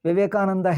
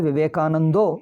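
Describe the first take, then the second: First: The name ends with an "a" vowel. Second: The name ends with an "o" vowel.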